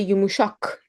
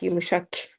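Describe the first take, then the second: First: "yumuşak" with an open back a and back k; correct pronunciation. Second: "yumuşak" with a fronted final a and k; softer mispronounced "yumuşak", k too far forward; wrong pronunciation. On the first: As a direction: say "yumuşak" as yu-mu-SHAHK. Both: Shown as a demonstration. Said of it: "not yumuşak".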